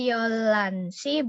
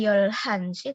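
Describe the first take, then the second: First: A clear l sound joins the syllables. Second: An l followed by a heard h. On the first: "Bukan Yolansi" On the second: "bukan Yolhansi"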